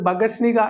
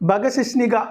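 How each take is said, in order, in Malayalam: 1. നടുവിലെ 'shi' അക്ഷരം പൂർണ്ണമായി ഒഴിവാക്കിയിട്ടുണ്ട്. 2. നടുവിലെ 'shi' അക്ഷരം പൂർണ്ണമായി ഉച്ചരിച്ചിട്ടുണ്ട്. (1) "ബഗശ്നിക എന്ന് തെറ്റിച്ച് പറയുന്ന ഒരുപാട് ആളുകളുണ്ട്" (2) "അത് അങ്ങനെ തന്നെയാണ് പറയേണ്ടത്"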